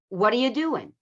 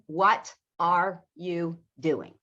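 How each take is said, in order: First: The words are reduced and run together. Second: Each word is said fully and separately. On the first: The speaker calls it right. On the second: The speaker calls it wrong.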